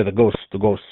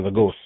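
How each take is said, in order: First: Lightly imitated heavy Spanish accent. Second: Said in the usual way. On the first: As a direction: mimic an older resident's Spanish accent. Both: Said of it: "he has a kind of heavy accent".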